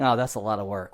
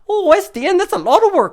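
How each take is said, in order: First: It is said in his plain voice. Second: It is said in a Scotty-like Scottish accent.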